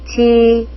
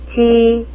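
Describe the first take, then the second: No difference in how they are said.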